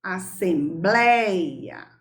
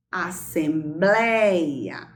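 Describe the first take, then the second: First: Assembleia said very slowly, each syllable apart; syllables drawn out. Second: Assembleia slow, the i of ei said weaker than the e; weak i glide. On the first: Teacher to pupils, slowly sounding out assembleia. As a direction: stretch out assembleia so the ei glides. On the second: Teacher to pupils, showing the weak i in assembleia. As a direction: let the i in assembleia fade as a semivowel. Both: Shown as a demonstration.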